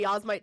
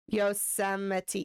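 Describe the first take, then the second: First: The word is squeezed into two syllables. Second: The word is said with four full syllables. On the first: The speaker calls it wrong. "I still just say Yasmite Sam" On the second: The speaker calls it right. "until I have Yosemite pronunciation correctly"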